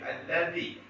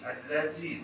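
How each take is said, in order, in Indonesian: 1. Konsonan di tengah adalah bunyi th lembut. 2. Konsonan di tengah adalah bunyi z. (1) "alladhi dengan meletakkan ujung lidah di ujung gigi sebelah atas" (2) "jangan sebut allazi"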